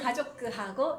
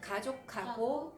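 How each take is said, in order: First: An extra vowel is inserted after the final k. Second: The final k merges with h into one aspirated k. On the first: The speaker calls it wrong. "이러면 이제 일본 사람 같고" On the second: The speaker calls it right. "카 발음이 나요. ... 이렇게 돼요. 그럼 좀 자연스러운데"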